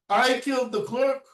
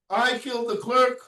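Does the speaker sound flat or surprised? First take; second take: surprised; surprised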